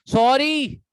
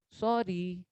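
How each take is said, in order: First: sorry snapped loud and sharp; harsh sorry. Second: sorry said soft and low; a soft humble sorry; gentle sorry. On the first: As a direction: throw sorry out rudely, loud. (Sorry ज़ोर से रूखे लहजे में) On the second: (sorry धीमे, नरम लहजे में) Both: Shown as a demonstration. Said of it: "tone का फर्क है".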